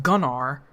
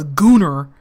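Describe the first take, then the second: First: Said in the usual way. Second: Gunnar with a long oo, GOO-ner; mimicked mispronunciation of Gunnar, oo in the first syllable; narrator's pronunciation. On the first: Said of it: "instead of Gunnar". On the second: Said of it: "the narrator is going like".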